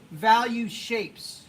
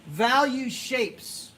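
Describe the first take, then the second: First: Repeated slowly with weight on "Value"; steady slow teacher repeat of "Value shapes". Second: Value shapes drawn out slow; slow teacherly stress on "Value"; slow emphasis. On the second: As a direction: spell out "Value shapes" slowly, leaning on "Value". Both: Shown as a demonstration.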